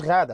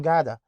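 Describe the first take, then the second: First: "غادة" with a throaty ghain; Arabic ghain. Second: "جادة" with a hard g replacing ghain; English speakers' hard G. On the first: Shown as a demonstration. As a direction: start "غادة" on Arabic gh, not hard g. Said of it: "ما عندهمش الغين في لسانهم". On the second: Retold or imitated. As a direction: say Ghada as "جادة", starting like go. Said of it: "بيقولوا جادة".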